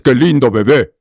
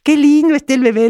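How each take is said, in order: First: Put-on the wrong way to coo at a baby; untender delivery. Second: Put-on very high, tender baby-talk voice; sweet little voice. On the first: Teacher showing how not to talk to a baby, harsh untender voice. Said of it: "no le gri-, no le dices". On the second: Teacher showing tenderness to a baby, sweet high little voice. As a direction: coo in a tiny sweet high voice. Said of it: "le empiezas a hablar con una vocecita dulce, suave". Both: Shown as a demonstration.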